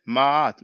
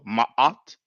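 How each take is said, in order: First: One long drawn-out a vowel is heard. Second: A glottal catch splits the two vowels. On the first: "like a elongated a sound" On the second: "the ayin is a glottal, has like kind of a glottal stop"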